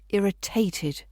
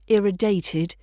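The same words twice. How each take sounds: First: The middle consonant is a clear t. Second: The middle consonant sounds like a soft d. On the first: The speaker calls it right. "we've got that clear t sound in there" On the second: The speaker calls it wrong. "Don't use a d sound. It's not irritated"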